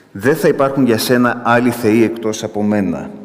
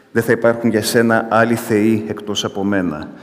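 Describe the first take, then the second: Both takes have the same delivery.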